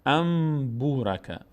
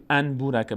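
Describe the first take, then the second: First: ام بو راکه slowly, with a long hummed m before b; n turned to m. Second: ان بو راکه with a clear n before the b; wrong n reading. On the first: Teacher models the rule, ام بو راکه with held m. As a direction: draw out the m in ام, then glide into بو راکه. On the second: Teacher shows what not to say, ان بو راکه with clear n. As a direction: keep the n of ان, no m: an burake. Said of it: "نمیگیم ان بو راکه". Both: Shown as a demonstration.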